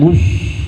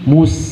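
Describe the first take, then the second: First: The s is said as a hushing sh sound. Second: The s is said as a thin, sharp s. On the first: The speaker calls it wrong. "bukan mush" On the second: The speaker calls it right. "tapi mus ya"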